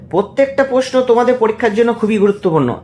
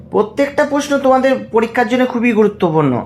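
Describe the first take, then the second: The two takes are said the same way.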